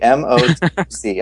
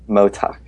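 First: Every syllable of the term is pronounced. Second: The term is said as one short word.

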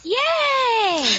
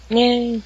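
First: It is said excitedly, with more energy. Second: It is said flatly, with little energy.

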